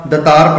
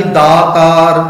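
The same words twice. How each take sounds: First: ਦਤਾਰ with a short clipped first vowel; wrong reading. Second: ਦਾਤਾਰ chanted with long aa after d; correct chanted form. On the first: Teacher showing the congregation the careless ਦਤਾਰ. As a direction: read it wrongly as ਦਤਾਰ, no long aa. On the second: Teacher chanting ਦਾਤਾਰ correctly before the mistake. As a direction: sing out ਦਾਤਾਰ, first vowel long. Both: Shown as a demonstration. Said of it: "ਦਤਾਰ ਪੜ੍ਹ ਦਿੰਦੇ ਹਾਂ".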